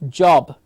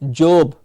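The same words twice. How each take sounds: First: The vowel is a clear open 'or' sound. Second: The vowel is not a clear open 'or' sound. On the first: The speaker calls it right. "clear, open mouth, or" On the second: The speaker calls it wrong. "we will hear them call it job"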